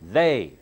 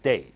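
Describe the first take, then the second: First: The first sound has the tongue against upper teeth. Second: The first sound has the tongue kept behind teeth. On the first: The speaker calls it right. "You have to say they, Tongue sticks out and touches the upper teeth" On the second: The speaker calls it wrong. "not they"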